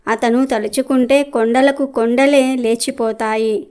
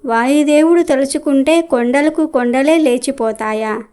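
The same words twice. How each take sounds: First: Said in the usual way. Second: A mild, disbelieving question mark on లేచిపోతాయా; scoffing question. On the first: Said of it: "అని అడిగాడు నారదుడు". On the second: Acted. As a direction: throw the sage's own words back, lightly mocking. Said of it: "పెద్ద గొంతుతో అరిచినట్టుగా మాట్లాడింది".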